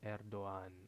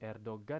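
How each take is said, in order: First: The g is silent and the vowels run together. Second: A hard g sound is pronounced in the middle. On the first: The speaker calls it right. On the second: The speaker calls it wrong.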